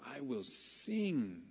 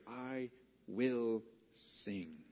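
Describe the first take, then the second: First: "I will sing." slow, stress landing on sing; slow reading. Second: "I will sing." drawn out very slowly, stress on will; slow emphatic reading. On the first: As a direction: let sing carry the weight, slowly. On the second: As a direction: lean hard on will, stretch every word. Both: Shown as a demonstration. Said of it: "The third definitive term".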